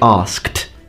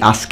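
First: The word ends with a clear kt sound. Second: The word ends without a clear kt sound. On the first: The speaker calls it right. "it's more like asked with a kt sound" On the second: The speaker calls it wrong. "at first I used to say asked"

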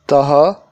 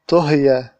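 First: It is said with an 'a' after the first consonant. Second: It is said with 'u' first and 'i' before the last consonant. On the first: Someone cooked it. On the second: It was cooked.

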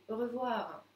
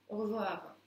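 Both takes have the same delivery.

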